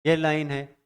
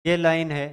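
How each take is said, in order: Both takes have the same delivery.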